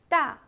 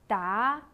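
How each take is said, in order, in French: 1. La hauteur tombe brusquement du haut vers le bas. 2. La hauteur monte du milieu vers le haut.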